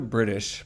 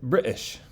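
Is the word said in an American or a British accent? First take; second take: American; British. First: The word is said in a plain American accent. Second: The word is said in a put-on British accent.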